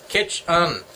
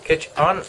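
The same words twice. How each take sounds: First: "Kitch Un" read as two flat syllables, falling, like spelled on the envelope; puzzled literal "Kitch Un" with a falling end. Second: "Kitch Un?" with a rising, questioning end; rising "Kitch Un?", half a question; puzzled question. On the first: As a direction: sound it out as written, "Kitch Un". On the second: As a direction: ask it like you can't place the name, "Kitch Un?". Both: Shown as a demonstration. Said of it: "I guess that's Kitchener".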